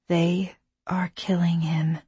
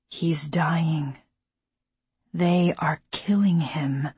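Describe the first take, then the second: First: Hushed inner whisper; whispered thought. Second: Hushed whisper. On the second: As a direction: whisper it in dread. Alone at dying father's bed. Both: A narrator's reading.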